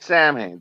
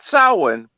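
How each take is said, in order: First: It is said as spelled, like sam hain. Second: It is said the Irish way, like sow-in. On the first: This is the band's name. "but Sam Hain. That's the name of the band" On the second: This is the traditional Irish name. "Not Samhain"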